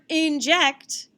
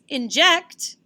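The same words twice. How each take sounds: First: The stress is on the first syllable. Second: The stress is on the second syllable. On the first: The speaker calls it wrong. "doesn't sound as good as" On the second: The speaker calls it right. "the accent mark is on the second syllable"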